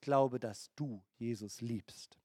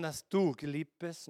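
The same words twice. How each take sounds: First: Glaube stressed, whole phrase dass du Jesus liebst slow and low; slow stressed contrast. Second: Said in the usual way. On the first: Shown as a demonstration. Preacher contrasting the two beliefs, slow and low. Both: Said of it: "Seht ihr den Unterschied zwischen den zwei?".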